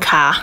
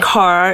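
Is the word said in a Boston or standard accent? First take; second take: Boston; standard. First: It is said Boston-style, without the r. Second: It is said with the r pronounced.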